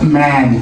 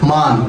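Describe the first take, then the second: First: The vowel is a flat 'a' as in cat. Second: The vowel is an open 'ah' sound. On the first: The speaker calls it right. "আমরা এখানে আমরা কি বলি? ম্যান" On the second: The speaker calls it wrong. "আমরা বানান করে কি পেলাম? মান"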